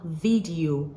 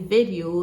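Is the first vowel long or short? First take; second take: long; short. First: The first vowel is drawn out long. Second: The first vowel is clipped very short. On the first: The speaker calls it wrong. "not video" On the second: The speaker calls it right. "the short A vowel sound"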